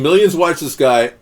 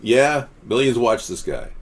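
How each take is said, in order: First: Higher, louder mocking quote; quoted mocking commenter. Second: Slow, measured quote at usual pitch; slow it down as if won over; quoted sincere agreement. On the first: Host reading out a viewer's scoff, loud and mocking. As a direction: pitch it up and make fun. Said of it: "the guy who was saying". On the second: Retold or imitated. Host reading the viewer's changed opinion, slow and conceding. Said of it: "and then he's now saying".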